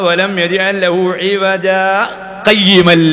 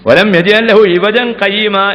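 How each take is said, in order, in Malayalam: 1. അവസാന വാക്കിന് മുമ്പ് ഒരു ചെറിയ ഇടവേളയുണ്ട്. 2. വാക്കുകൾ ഇടവേളയില്ലാതെ നേരെ തുടരുന്നു. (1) "ഒരു ചെറിയ ശ്വാസത്തിന്റെ അടക്കം അവിടെ പാലിക്കുക" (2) "എന്നങ്ങാൻ വായിച്ചു പോയാൽ"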